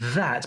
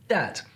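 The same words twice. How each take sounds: First: The word begins with a th sound. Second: The word begins without a th sound.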